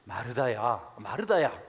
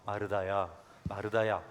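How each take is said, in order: First: It is said in a rebuking, scolding tone. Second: It is said in a tender, pitying tone.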